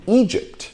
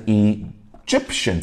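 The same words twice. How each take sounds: First: "Egypt" stressed on the first syllable, E; teacher's demo of EE-jipt, opening syllable stressed. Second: "Egyptian" stressed on the second syllable, GYP; light E, then lean on GYP in "Egyptian"; teacher's demo of ee-JIP-shun, middle syllable stressed. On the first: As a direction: hit the E in "Egypt". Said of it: "这边重音在第一个音节". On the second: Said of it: "在第二个音节". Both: Shown as a demonstration.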